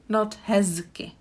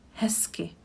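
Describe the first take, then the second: First: The middle consonant is a voiced z sound. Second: The middle consonant is a voiceless s sound. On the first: The speaker calls it wrong. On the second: The speaker calls it right. "I said hezky, ... I don't really pronounce the z here, and I switch it to s"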